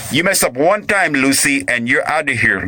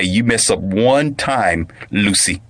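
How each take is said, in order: First: Raised-pitch mock threat to a wife; hammed-up husband's warning. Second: Said in the usual way. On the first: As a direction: warn her in a higher, acted voice.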